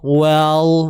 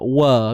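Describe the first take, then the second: First: The vowel is thinned toward an e sound. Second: The vowel is a plain, relaxed open a. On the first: The speaker calls it wrong. "nipis tu jadi nipis sangat... dia jadi well" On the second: The speaker calls it right. "wa biasa je"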